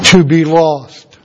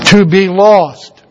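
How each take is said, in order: First: Slow, weighty answer; drawn out, grave and falling; solemn emphasis. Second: Slow, more forceful and grave; drawn out with firm, solemn weight; emphatic repetition. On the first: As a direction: let each word land slowly and gravely. Answers own question, solemn climax. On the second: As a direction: drive it home, word by word. Repeats the answer for emphasis. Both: Real, not acted.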